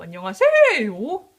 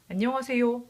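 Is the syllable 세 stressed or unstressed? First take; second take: stressed; unstressed. First: The syllable 세 is stressed. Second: The syllable 세 is not stressed.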